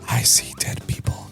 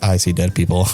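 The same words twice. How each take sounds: First: The line is whispered. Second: The line is said in a normal voice.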